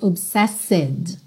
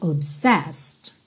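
First: An extra vowel is sounded after the final consonants. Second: The word ends on the consonants, with no vowel. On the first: The speaker calls it wrong. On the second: The speaker calls it right.

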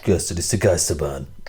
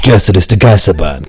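First: The voice is very quiet and clean. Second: The voice is loud and heavily distorted. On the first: "Jetzt war es viel zu leise" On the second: "Das war krass übersteuert"

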